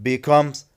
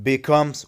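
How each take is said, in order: The two takes are said the same way.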